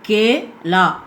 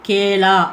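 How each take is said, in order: First: The two syllables are said separately with a break. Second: The two syllables are blended into one word. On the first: "பிரித்து படிச்சுட்டு" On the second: "கூட்டி படிக்கின்றது"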